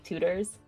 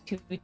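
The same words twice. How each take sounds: First: The middle T is a soft D sound. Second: The middle T is a crisp T sound.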